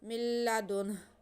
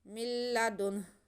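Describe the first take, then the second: The two takes are said the same way.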